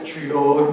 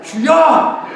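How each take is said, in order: First: It is said calmly and mildly. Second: It is shouted with anger.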